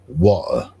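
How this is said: It is said in a British accent. "a lot of the Brits say water"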